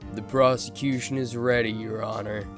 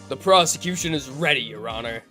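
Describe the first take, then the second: First: It is said in a plain voice. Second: It is said in an edgy, dignified voice.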